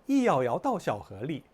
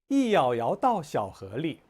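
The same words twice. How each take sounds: First: It is read quickly. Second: It is read at a slow, careful pace.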